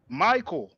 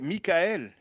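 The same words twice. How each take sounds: First: It is said with an English pronunciation. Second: It is said with a French pronunciation. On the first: "you say Michael" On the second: "In French, we say Michael"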